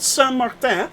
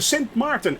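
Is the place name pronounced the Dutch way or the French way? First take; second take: French; Dutch. First: The name is pronounced the French way. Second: The name is pronounced the Dutch way. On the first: It names the French part of the island. The speaker calls it wrong. "as a lot of people say. That's the French part" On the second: It names the Dutch part of the island. The speaker calls it right.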